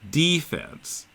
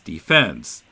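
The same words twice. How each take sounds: First: The stress is on the first syllable. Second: The stress is on the second syllable. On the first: It refers to the defending side in sports. "we pronounce them as offense, defense" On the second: It has the general, non-sports sense. "rather than offense, defense"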